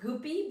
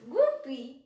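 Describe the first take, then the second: First: The word has no L sound after G. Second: The word has an L sound after G.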